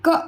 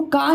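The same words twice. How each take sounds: First: क as a short 'kuh'; isolated क, brief schwa, no long aa; short inherent vowel. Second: का with a long open aa; wrong long vowel. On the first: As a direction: model क cut short. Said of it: "अब व्यंजन को कैसे पढ़ते हैं". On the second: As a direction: mistaken का, vowel stretched to aa. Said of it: "इसको का नहीं बोलते". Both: Shown as a demonstration.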